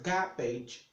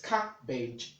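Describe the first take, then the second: First: The word begins with a G sound. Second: The word begins with a K sound. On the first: The speaker calls it wrong. "oftentimes people get to pronounce it garbage" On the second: The speaker calls it right. "So it is cabbage"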